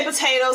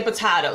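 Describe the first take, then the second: First: "potato" with a long AY in the middle; usual pronunciation of potato. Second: "potato" said puh-TIE-toh; alternative pronunciation of potato. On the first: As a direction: say "potato" as puh-TAY-toh. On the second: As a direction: open the middle vowel of "potato" to an eye sound. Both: Shown as a demonstration. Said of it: "some people say potato".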